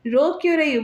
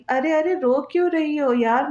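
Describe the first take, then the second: First: Snapping क्यों higher and sharp; angry roar. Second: Gently coaxing, a lightly voiced lover; tender coaxing. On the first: Husband loses patience with his crying wife, angry. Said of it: "गुस्से से दहाड़ने पर". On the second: Husband coaxing his crying wife, mildly tender. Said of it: "बड़े प्यार से कहते". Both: A narrator's reading.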